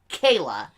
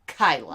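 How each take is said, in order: First: The first vowel rhymes with 'day'. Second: The first vowel rhymes with 'sky'. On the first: The speaker calls it right. "My name" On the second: The speaker calls it wrong. "and pronouncing it"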